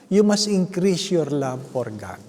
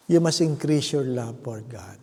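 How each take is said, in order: First: Each word of "you must increase your love for God" laid out slowly; slow emphatic. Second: Said in the usual way. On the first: Shown as a demonstration. Preacher drives the point home to the congregation, slow and emphatic.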